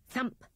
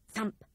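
The two takes are said the same way.

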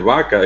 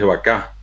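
First: "vaca" stressed on the first syllable; Spanish stress on VA in "vaca"; penultimate stress. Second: "vacá" stressed on the last syllable; Guaraní stress on the end of "vacá"; final-syllable stress. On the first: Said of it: "tienen acentos llanos". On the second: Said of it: "El guaraní es un idioma de sílabas agudas". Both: Shown as a demonstration.

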